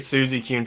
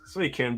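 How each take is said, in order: First: The name begins with a 'Suzy' sound. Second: The name begins with a 'Sui' sound. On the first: The speaker calls it wrong. "I always struggled with pronouncing the name" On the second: The speaker calls it right. "now I know as an adult, it's Suicune"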